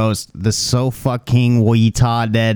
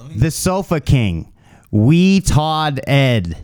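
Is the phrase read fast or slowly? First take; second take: fast; slow. First: The phrase is read quickly, words running together. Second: The phrase is read slowly, words split apart. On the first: The speaker calls it wrong. "You read it way too fast" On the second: The speaker calls it right. "Slow, like"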